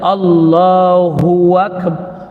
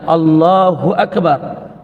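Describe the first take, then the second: First: A 'w' sound is added between the two words. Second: Nothing is added between the two words. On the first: The speaker calls it wrong. "dia pergi tambah waw" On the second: The speaker calls it right. "sepatutnya dia kata Allahu Akbar"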